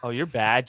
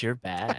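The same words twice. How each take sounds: First: Said in the usual way. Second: Soft, lisping "you're bad"; mock lisping tease. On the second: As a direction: tease with a lisp. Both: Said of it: "You gotta put more lisp in it".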